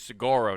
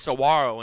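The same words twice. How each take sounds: First: The middle consonant is a hard G sound. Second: The middle consonant is a W sound.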